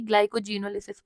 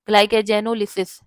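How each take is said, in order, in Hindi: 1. 'glycogen' वाला हिस्सा धुंधला है, साफ़ सुनाई नहीं देता। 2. 'glycogen' वाला हिस्सा साफ़ और पूरा बोला गया है। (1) "असल तरीका ये है कि ग्लाइकोजिनोलिसिस पढ़ लो, लेकिन फिर वो बैठ नहीं रहा है, ग्लाइकोजन वर्ड नहीं आ रहा है" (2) "अपने प्रोनाउंसिएशन में ऐसे पढ़ो कि ग्लाइकोजन आ जाए"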